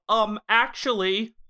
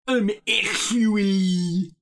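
First: Mild know-it-all imitation, slowed down; know-it-all "um, actually". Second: High, drawn-out robotic imitation; robot know-it-all. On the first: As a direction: lightly mimic someone showing off their knowledge. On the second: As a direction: stretch it out like a smug robot. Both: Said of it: "it's the robot version of".

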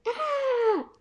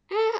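First: Long, very high "aaah" scream without full volume; bigger mock yell. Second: Short, understated "ah" yell; mild mock yell. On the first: Mouse out-yelling the shadows, long high mock yell. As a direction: stretch out a high-pitched story scream. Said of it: "I yelled louder". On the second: Frightened mouse at two shadows, mild mock yell. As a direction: read out a startled yell, held back. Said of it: "I yelled". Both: A narrator's reading.

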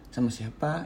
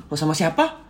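First: Said in the usual way. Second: Lightly lifted "Oh, sama siapa?"; casual asking. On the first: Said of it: "kayak biasa aja kan, cuma nanya". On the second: Shown as a demonstration. Partner just asking who the speaker was with, casual. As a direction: ask with simple curiosity, no accusation. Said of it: "cuma nanya".

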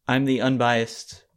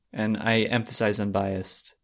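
First: Said in the usual way. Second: Unbiased said slowly, weight on biased; stress on BIASED. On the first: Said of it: "you said you're the unbiased". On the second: Real, not acted. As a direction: lean on the biased part of unbiased. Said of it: "you emphasized the biased part of it".

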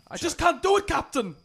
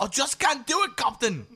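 First: High mock Scottish engineer voice; hammed-up Scottish Star Trek engineer; Scotty impression. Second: Much higher, louder mock Scottish through laughter; laughing, overdone Scottish imitation; copying the Scotty line. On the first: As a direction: play Scotty badly, pitched well up with a Scottish lilt. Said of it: "I can just do Scotty impressions". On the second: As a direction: echo the Scotty line, hamming the Scottish up even more. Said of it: "He was trying for Sean Connery".

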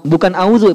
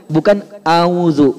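First: Auzu said flat without the ain; plain auzu; not auzu. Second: Auzu slowly without the ain; slow not auzu. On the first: Teacher naming the wrong auzu. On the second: Teacher repeating the wrong auzu slowly. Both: Shown as a demonstration.

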